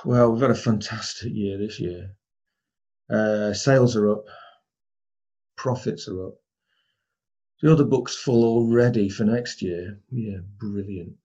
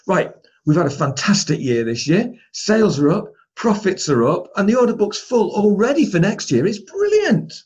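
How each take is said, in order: First: Lower, much softer, slowing to a dull brilliant; flat and deflated. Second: Upbeat, rising higher and higher to a thrilled peak; enthusiastic. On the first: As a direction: deliver good news as if it were bad. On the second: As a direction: sell the great news to the team. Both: Shown as a demonstration. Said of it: "same words, but do you get a different message".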